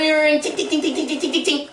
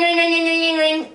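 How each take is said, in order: First: Muffled bell. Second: High, rapid trilling ring; ringing bell. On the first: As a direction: ring choked into quick high tings. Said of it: "like something's muffling it". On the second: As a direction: imitate the bell going off. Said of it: "And then ring". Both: Retold or imitated.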